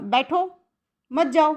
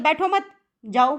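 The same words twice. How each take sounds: First: The pause comes right after the first word. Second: The pause comes right after the second word. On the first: The listener should sit and not leave. "तो वो क्या करेगा? बैठ जाएगा, जाएगा नहीं।" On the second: The listener should not sit but leave. "तो वो चला जाएगा।"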